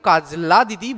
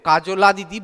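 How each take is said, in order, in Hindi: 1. j के तुरंत बाद l आता है। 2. j के बाद एक छोटा o स्वर आता है। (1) "তোমরা কিন্তু কাজলা দিদি বলবে" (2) "কাজলা দিদি বলবে না"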